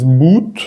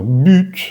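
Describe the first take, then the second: First: But as "boot", plain u; wrong Spanish U. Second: But as "büt", rounded ee; right French U. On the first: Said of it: "No es but". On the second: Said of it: "sino but". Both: Shown as a demonstration.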